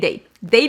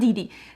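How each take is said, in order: First: Both syllables have an 'ay' vowel. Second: Both syllables have an 'ee' vowel. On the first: The speaker calls it right. "Her name is Day Day" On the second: The speaker calls it wrong. "It's not Didi"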